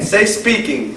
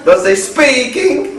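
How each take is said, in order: First: "speaking" said low and brief; demonstrating pronunciation. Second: "speaking" drawn out, rising at the end; Swedish-like pronunciation. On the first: Coaching partner to say it, "speaking" evenly falling. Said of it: "Say it again. Say speaking". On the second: Correcting partner's accent, "speaking" slow and rising. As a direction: stretch "speaking" into a questioning lilt. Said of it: "That is like a Swedish". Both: Shown as a demonstration.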